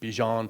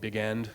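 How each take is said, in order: First: The name sounds like 'bee-zhahn', without a hard g. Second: The name sounds like the two words 'big end'. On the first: This is how the name is properly pronounced. The speaker calls it right. "would be the correct pronunciation" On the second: This is how people read the name from its spelling. The speaker calls it wrong. "everyone calls him Big End because that's how it's spelled"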